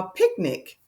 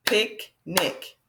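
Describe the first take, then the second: First: Said in the usual way. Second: Picnic split as "Pic, nic"; two distinct beats in Picnic; separated syllables. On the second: Shown as a demonstration. Teacher showing two closed syllables, splitting picnic. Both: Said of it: "Pick is closed".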